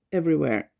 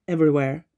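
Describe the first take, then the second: No difference in how they are said.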